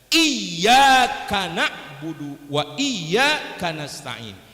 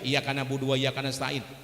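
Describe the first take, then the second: First: The y sound in iyyaka is held doubled. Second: The y sound in iyyaka is short, single. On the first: We worship you and ask you for help. The speaker calls it right. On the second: We worship the sunlight and ask the sunlight for help. The speaker calls it wrong.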